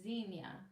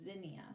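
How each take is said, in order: First: The first vowel is a long 'ee' sound. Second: The first vowel is a short 'i' sound. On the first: The speaker was born before 1960. "you were born before nineteen sixty, you probably say Xenia" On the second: The speaker was born after 1960. "if you were born after nineteen sixty, you say Zinnia"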